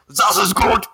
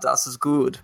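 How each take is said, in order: First: It is said in an angry, shouting way. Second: It is said in a calm, relaxed way. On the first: "a really, really angry German" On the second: "a really, really calm German"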